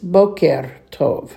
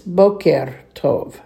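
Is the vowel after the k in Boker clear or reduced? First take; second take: clear; clear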